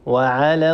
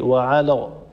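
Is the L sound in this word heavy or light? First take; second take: light; heavy. First: The L sound is light and thin. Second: The L sound is heavy and velarized. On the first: The speaker calls it right. "لام مرققة مستفلة" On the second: The speaker calls it wrong. "لا يصح"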